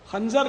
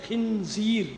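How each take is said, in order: First: The first syllable is said as 'khan'. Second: The first syllable is said as 'khin'. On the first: The speaker calls it wrong. "खंजर नहीं है" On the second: The speaker calls it right.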